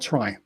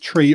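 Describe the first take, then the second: First: The vowel is an 'eye' sound. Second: The vowel is a long 'ee' sound. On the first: "or try" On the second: "you can say the word tree as, as tree or try"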